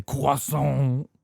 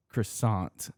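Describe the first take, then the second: First: Exaggerated French croissant, "kwah-sohn"; French pronunciation. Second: Said in the usual way. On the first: Shown as a demonstration. Mocking what Americans don't say, croissant in exaggerated French. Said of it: "we don't say croissant". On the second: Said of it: "because in America".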